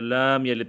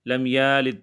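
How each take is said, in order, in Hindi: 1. la अक्षर लंबा खींचा जाता है। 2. ya अक्षर लंबा खींचा जाता है। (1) "या लाम यलिद पढ़ते हैं" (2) "लम यालिद पढ़ते हैं"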